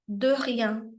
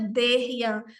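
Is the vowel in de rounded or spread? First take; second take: rounded; spread. First: The vowel in de is rounded, lips not spread. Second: The vowel in de is spread, lips pulled sideways. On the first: The speaker calls it right. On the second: The speaker calls it wrong.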